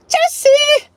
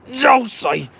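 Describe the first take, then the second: First: A full scream of Juicy out the window; shouted Juicy. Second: A half-hearted cheer of Juicy, higher but not shouted; weak juicy cheer. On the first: Pretend. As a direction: yell Juicy as loud and high as you can. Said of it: "not a good enough juicy". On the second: Shown as a demonstration. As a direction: toss off Juicy as a first, small try. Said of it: "That's not a good enough juicy".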